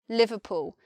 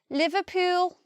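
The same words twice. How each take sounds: First: Southern accent, with a shortened final oo vowel. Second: Local accent, pitch rising sharply at the end. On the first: "in my southern English pronunciation, ... this oo vowel is shortened" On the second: "If you're from there, you'll say Liverpool, and the pitch rises quite a lot at the end"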